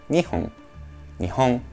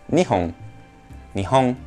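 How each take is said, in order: No difference in how they are said.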